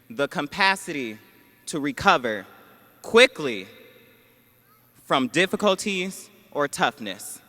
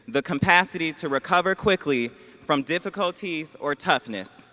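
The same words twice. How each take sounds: First: The word quickly is said with strong emphasis. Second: The word quickly gets no special emphasis.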